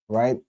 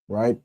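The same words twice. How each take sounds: The two takes are said the same way.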